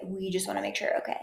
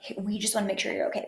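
First: Fast unvoiced breathy whisper; breathy Meghan imitation. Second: Quick, airy fake-sweet imitation; Meghan imitation. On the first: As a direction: breathe it out fast and hushed, faking concern. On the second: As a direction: rattle it off like a hollow PR line. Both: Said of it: "breathy and nasally".

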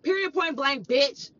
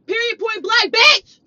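First: Said in the usual way. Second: Higher, louder, ending in a shout; angry escalation. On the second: Retold or imitated. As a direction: drive it home, shouting the last word. Escalating repeat of the retort.

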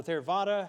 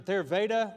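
First: Theravada with VAH in the middle; alternative pronunciation. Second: Theravada with VAY in the middle; first pronunciation attempt. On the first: Preacher offering another guess at the term, Theravada pronounced ther-VAH-da. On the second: Preacher unsure of a Buddhist term, tentative pronunciation of Theravada as ther-VAY-da. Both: Shown as a demonstration. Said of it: "however you say that".

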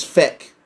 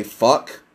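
First: "feck" with an e vowel in place of u; "feck", rhyming with deck; Irish feck. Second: Said in the usual way. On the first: Shown as a demonstration. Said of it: "He says feck. F E C K". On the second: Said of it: "Americans say fuck".

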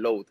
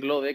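First: "load" as one English-style syllable; international mispronunciation. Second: Said in the usual way. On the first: Retold or imitated. Singer imitates foreign media saying his name, "load" pronounced English-style. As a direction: say "load" like the English word, final e silent. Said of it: "lo llevaban como al punto internacional". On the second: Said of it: "en vez de decir Lode".

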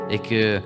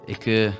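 Both takes have the same delivery.

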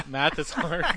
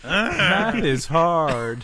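First: Laughing. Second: Very slow, high, loud doll voice; pull string toy. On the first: Real, not acted. Repeats toy phrase laughing. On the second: Pretend. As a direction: drag out each word like a talking toy.

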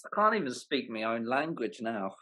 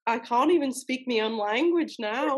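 First: Native British, long AH in "can't"; exasperated aside in British; British accent. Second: Laughing echo in put-on British; teasing British copy; mock British accent. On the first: Real, not acted. Briton's line, echoed in accent. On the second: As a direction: parrot him in amateur British, "can't" as cahnt. Echoing the Briton's accent.

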